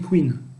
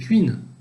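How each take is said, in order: First: Queen is said with the speaker's own usual pronunciation. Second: Queen is said with an eastern regional pronunciation. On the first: This is how the speaker's own region says it. "alors que nous on dit Queen" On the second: This is how people in the northeast say it. "souvent dans le dans l'Est, Nord-Est, tout ce qui est Alsace... ils disent Queen"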